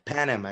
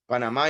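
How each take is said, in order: First: The word is pronounced the English way. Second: The word is pronounced the Spanish way. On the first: "Panama in English" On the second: "Panama in Spanish"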